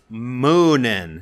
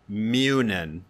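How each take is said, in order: First: The first syllable sounds like 'moo'. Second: The first syllable sounds like 'mew'. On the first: The speaker calls it right. "Moo like a cow" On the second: The speaker calls it wrong. "not Mew like Mewtwo"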